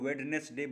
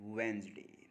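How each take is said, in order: First: The d and middle syllable are fully pronounced. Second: The d is silent and the word is shortened. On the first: The speaker calls it wrong. "अक्सर हम लोग उसको वेडनेसडे बोल देते हैं" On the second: The speaker calls it right. "लेकिन असल में है वेंसडे"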